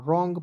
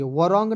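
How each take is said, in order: First: Said in the usual way. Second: "वरॉन्ग" with the silent w sounded as va; wrong pronunciation. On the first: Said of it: "रॉन्ग पढ़ा जाएगा". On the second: Shown as a demonstration. Teacher warns against sounding the w, mispronounced "वरॉन्ग". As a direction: say "वरॉन्ग" with an extra va before the r. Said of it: "नहीं पढ़ लीजिएगा".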